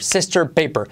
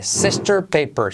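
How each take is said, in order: First: Said in the usual way. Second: "Sister paper" slow, final R swallowing the vowel; slow model words. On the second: Shown as a demonstration. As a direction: say "Sister paper" slowly, stressing the R endings. ("Sister paper" lento, la R se come la vocal) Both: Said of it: "acuérdate".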